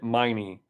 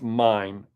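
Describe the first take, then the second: First: The name has two syllables, ending in ee. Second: The name has one syllable, like mine. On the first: The speaker calls it wrong. "I've already always pronounced it Miney" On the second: The speaker calls it right. "but it's Mine"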